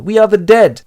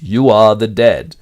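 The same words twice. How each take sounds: First: "are" pushed high and loud; higher lovers' line, stress on "are". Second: "You" stressed, slow, loud and metallic; cold machine echo from the wall. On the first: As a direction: lean hard on "are". Lovers whisper doom. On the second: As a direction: hidden telescreen speaking, metallic and slow. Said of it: "a metallic voice behind them repeats". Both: Acted.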